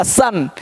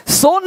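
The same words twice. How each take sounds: First: "सन" with a short uh vowel; correct pronunciation. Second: "सोन" with a round long o; wrong pronunciation. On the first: Teacher corrects the misreading, correct pronunciation. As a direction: model "सन" with uh in place of oh. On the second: Teacher warns learners off a misreading, wrong pronunciation. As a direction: say the mistaken "सोन", reading o as oh. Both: Shown as a demonstration. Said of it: "सोन नहीं पढ़ना".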